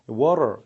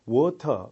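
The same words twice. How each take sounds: First: It is said in an American accent. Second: It is said in a British accent. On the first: "미국식 발음으로는 어떻게 합니까? water 이렇게 말하죠" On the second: "영국식 발음은 water 뭐 이런 식으로 나옵니다"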